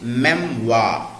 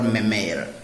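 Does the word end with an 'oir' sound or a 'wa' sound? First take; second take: wa; oir. First: The word ends in a plain 'wa' sound. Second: The word ends in an 'oir' sound with r. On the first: The speaker calls it right. "the pronunciation of words ending in O I R is wa" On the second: The speaker calls it wrong. "not a memoir or memoir"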